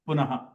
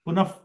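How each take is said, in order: First: The visarga is pronounced as an h. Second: The visarga is pronounced like an f.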